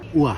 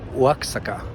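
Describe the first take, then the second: First: No X sound is pronounced in the middle. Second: An X sound is pronounced in the middle. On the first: It is how the name is actually said. The speaker calls it right. "but it is pronounced Oaxaca" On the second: It follows the spelling. The speaker calls it wrong. "in the beginning I said Oaxaca because you know that's what it says"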